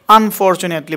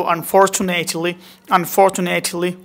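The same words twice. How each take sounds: First: আনফরচুনেটলি run together, short "net"; normal pronunciation. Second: আনফরচুনেটলি slowly, with long "nayt"; smart pronunciation. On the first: Teacher showing what not to say, আনফরচুনেটলি with short "net". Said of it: "বলবো না". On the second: Teacher drilling the smart sound, আনফরচুনেটলি with long "nayt". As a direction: say আনফরচুনেটলি as "an-for-chu-NAYT-li", slow. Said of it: "কি বলবো?". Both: Shown as a demonstration.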